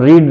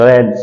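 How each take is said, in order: First: The vowel is a long 'ee' sound. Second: The vowel is a short 'e' sound. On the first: It is the base form of the verb. The speaker calls it wrong. "रीड नहीं बोलेंगे" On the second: It is the past participle form of the verb. The speaker calls it right. "She had रेड बोलेंगे इसको"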